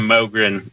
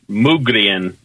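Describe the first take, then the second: First: The name is said with an American pronunciation. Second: The name is said with a Swedish pronunciation. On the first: "We call it Mogren" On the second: "the Swedes pronounce it Mugrien"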